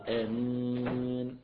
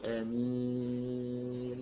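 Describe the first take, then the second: First: The final vowel is held for four counts. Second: The final vowel is held for six counts. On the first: "أربعة" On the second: "ست حركات"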